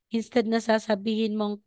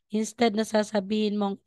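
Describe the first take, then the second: The two takes are said the same way.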